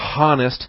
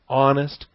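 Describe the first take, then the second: First: The word begins with an audible H sound. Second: The word begins with a throat closure, no H. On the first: The speaker calls it wrong. "you don't say honest" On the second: The speaker calls it right. "you do close the throat at the beginning of the word honest"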